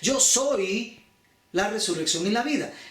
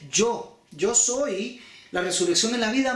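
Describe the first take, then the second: First: The stress is on the word soy. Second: The stress is on the word yo.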